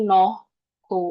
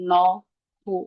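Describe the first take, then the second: No difference in how they are said.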